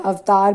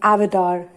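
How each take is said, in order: First: It is pronounced the Hindi way. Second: It is pronounced the English way. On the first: "avatar became" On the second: "became avatar in English"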